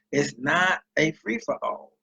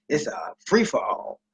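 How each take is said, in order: First: "not" leaned on, slow, rising tune; stress on not. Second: Said in the usual way. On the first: Shown as a demonstration. Correcting people who think food stamps are free, stress on "not". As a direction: hit "not" in "It's not a free-for-all".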